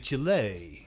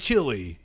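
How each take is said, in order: First: It is said with the local Spanish-style pronunciation. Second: It is said with an anglicized English pronunciation. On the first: The speaker calls it right. "you say Chile" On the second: The speaker calls it wrong. "you don't say Chile"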